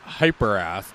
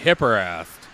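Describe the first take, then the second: First: The first syllable has a long 'hype' vowel. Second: The first syllable has a short 'hip' vowel. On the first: The speaker calls it right. "it's actually pronounced Hyperast" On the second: The speaker calls it wrong. "I believe I've called it Hipperast"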